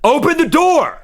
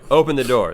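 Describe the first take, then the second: First: It is said loudly with more force. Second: It is said calmly at normal volume.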